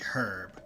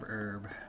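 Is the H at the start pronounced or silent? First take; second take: pronounced; silent. First: The word starts with a clear H sound. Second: The word starts with no H sound.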